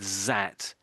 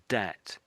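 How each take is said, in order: First: It begins with a z sound. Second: It begins with a d sound. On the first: "I can't remember if you said zat or dat" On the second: "I can't remember if you said zat or dat"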